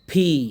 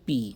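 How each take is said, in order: First: The first consonant has a puff of air. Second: The first consonant has no puff of air. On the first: The speaker calls it right. "প এবং ফয়ের মধ্যবর্তী" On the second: The speaker calls it wrong. "আসলে উচ্চারণ পি হবে না"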